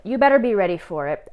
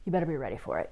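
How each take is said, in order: First: Fast, punchy and louder; louder emphatic warning. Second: Said in the usual way. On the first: Shown as a demonstration. Vlogger warns viewers, louder and faster. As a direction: warn the viewer sharply.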